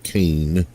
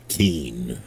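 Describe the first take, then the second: First: The name has an 'ay' vowel, like cane. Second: The name has an 'ee' vowel, like keen. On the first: The speaker calls it wrong. "not Kane" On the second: The speaker calls it right. "but Keen, like in King of the Jungle"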